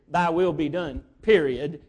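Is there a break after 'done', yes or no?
yes. It stops with a full break after 'done'.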